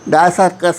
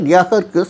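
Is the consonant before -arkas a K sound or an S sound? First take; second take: S sound; K sound. First: An S sound comes before the -arkas ending. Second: A K sound comes before the -arkas ending. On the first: This is how it was said in English. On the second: This is the original form of the name.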